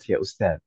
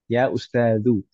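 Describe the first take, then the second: First: The last word ends without a final vowel. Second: The last word ends with a final u vowel. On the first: It is casual conversational speech. "dalam percakapan biasanya tidak dibaca harakat terakhir" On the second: It is the full grammatical form. "mabniun ala dhamm"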